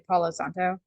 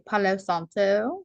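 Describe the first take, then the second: First: The name is said in a plain, ordinary way. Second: The name is said in a playful, exaggerated way. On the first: The speaker calls it wrong. "You're not allowed to just say Palo Santo" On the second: The speaker calls it right. "because it's more fun that way"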